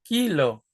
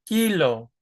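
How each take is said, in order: The two takes are said the same way.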